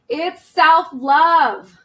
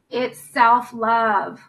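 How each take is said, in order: First: It is said more loudly. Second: It is said at normal volume.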